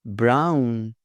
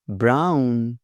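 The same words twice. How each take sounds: The two takes are said the same way.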